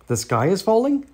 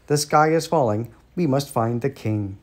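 First: Higher, rising to a startled question; lightly voiced turkey, pitch climbing on "falling"; gobbled question. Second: Understated storybook squawk of alarm; mild squawked alarm. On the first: Turkey Lurkey hears the alarm, startled questioning gobble. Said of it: "gobbled Turkey Lurkey". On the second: Birds spread the alarm as they dash off, mildly squawking. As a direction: announce it as a falling statement, mildly urgent. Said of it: "squawking and clucking and quacking". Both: A narrator's reading.

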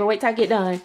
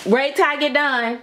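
First: Said in the usual way. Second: Firm repeat. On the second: Real, not acted. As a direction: insist they wait until you finish. Repeats it firmly to child.

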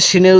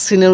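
First: শিনের with a thick "sh" at the start; thick shin. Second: সিনের with a thin, sharp "s" at the start; thin sin. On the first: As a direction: say শিনের with a fuller, heavier sh. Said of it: "একটু মোটা করে হবে". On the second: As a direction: say সিনের with a fine s, not sh. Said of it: "একটু চিকন করে হবে". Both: Shown as a demonstration.

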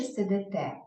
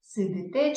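First: "сидите" said as сидЕте; е instead of и. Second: "Сидите" with и before те; clear и vowel. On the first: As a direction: put an open е before те in "сидите". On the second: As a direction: sound out "Сидите" as сидИте. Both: Shown as a demonstration. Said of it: "Ми напишемо".

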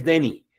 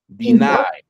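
First: "Denny" said wrongly like the name, stress on the first syllable, short e; the mistake: "Denny" as the name Denny, DEN-ny; wrong pronunciation. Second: "Deny" said di-NAI, stress on the second syllable, much higher; correct pronunciation. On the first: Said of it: "nunca es Denny". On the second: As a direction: model the right sound: "Deny" as di-NAI, lifted high on NAI. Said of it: "escucha cómo se pronuncia". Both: Shown as a demonstration.

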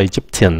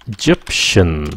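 First: Egyptian said with a t sound in the middle; the wrong Egyptian, t instead of sh; Egyptian with hard t. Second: Egyptian said slowly with a soft sh in the middle; Egyptian with sh sound. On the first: Teacher warns students off the t sound in Egyptian. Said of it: "không phải Egyptian". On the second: Teacher shows students Egyptian with sh, slowly. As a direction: stretch Egyptian so the sh is clear. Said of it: "phát âm là Egyptian". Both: Shown as a demonstration.

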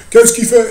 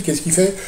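First: The repeated "Qu'est-ce qu'il fait?" much higher and louder; emphatic repeat. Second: Said in the usual way. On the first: Real, not acted. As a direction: push "Qu'est-ce qu'il fait?" out loud to tease the answer. Repeats question louder for effect. (« Qu'est-ce qu'il fait ? » répété bien plus haut et plus fort)

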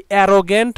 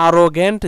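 First: "অ্যারোগ্যান্ট" opening on a short "a" as in "cat"; alternative pronunciation. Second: "আরোগ্যান্ট" opening on an open "aa" as in "father"; alternative pronunciation. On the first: Teacher showing learners one accepted variant, "অ্যারোগ্যান্ট" with an "æ" opening. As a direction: say "অ্যারোগ্যান্ট" with a front "æ" first vowel. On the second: Teacher showing learners the other accepted variant, "আরোগ্যান্ট" with an "aa" opening. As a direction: say "আরোগ্যান্ট" with a broad "aa" first vowel. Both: Shown as a demonstration. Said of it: "যেটাই বলো না কেন, দুটাই ঠিক".

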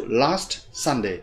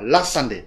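First: Slowed rhythm demo. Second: Rushed wrong version. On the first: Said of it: "chúng ta phải đọc last Sunday". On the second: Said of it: "chứ đừng có đọc là last Sunday". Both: Shown as a demonstration.

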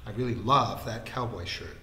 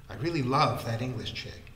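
First: Mock-earnest, with weight on LOVE; teasing copy of a lovelorn avowal; mimicking earnest tone. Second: Mildly earnest, with weight on LOVE; earnest confession. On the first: Mimicking Vikram's confession about a shirt, mock earnest. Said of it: "mimicking his tone of voice and the earnest expression". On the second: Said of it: "his tone of voice and the earnest expression". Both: A narrator's reading.

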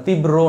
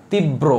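First: তীব্র as tib-ro, a lone r after the b; wrong pronunciation. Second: তীব্র as tib-bro, with the b doubled; correct pronunciation. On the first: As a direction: say তীব্র without doubling the ব, just tib-ro. (তীব্র: তিব-রো, ব দ্বিত্ব ছাড়া উচ্চারণ) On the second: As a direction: double the ব in তীব্র and keep it joined to the r. (তীব্র: তিব-ব্রো, ব দ্বিত্ব করে উচ্চারণ) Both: Shown as a demonstration. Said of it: "এখানে শুধু র হবে না".

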